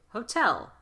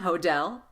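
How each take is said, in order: First: The middle consonant is a true T with air. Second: The middle consonant is a soft flapped D. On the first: The speaker calls it right. "T's at the beginning of the strongest syllable" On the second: The speaker calls it wrong. "put the light D where it doesn't belong"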